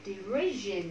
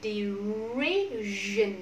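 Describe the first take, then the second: First: Said in the usual way. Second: "Derision" stretched, long r and long vowel; slow modelling. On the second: Shown as a demonstration. Teacher modelling for the class, a slow stretched "Derision". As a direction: draw out "Derision" syllable by syllable.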